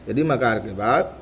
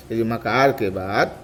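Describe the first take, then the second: No difference in how they are said.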